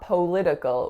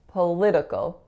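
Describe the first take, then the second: First: The first vowel is a full 'o' sound. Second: The first vowel is a reduced schwa sound. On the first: The speaker calls it wrong. "not political with an O sound" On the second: The speaker calls it right. "it's another schwa"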